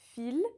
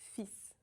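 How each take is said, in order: First: The word ends with an L sound. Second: The word ends with an S sound. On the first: The speaker calls it wrong. "It's not fil" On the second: The speaker calls it right. "The L is silent, but the S is not"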